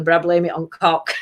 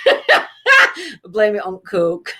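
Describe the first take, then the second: First: "cock" said with a short o like cock; mispronounced coke. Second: "coke" slowly with a long oh, laughing; corrected coke. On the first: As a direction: say "cock" instead of coke, laughing. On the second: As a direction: correct it to "coke", slow and giggly. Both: Shown as a demonstration.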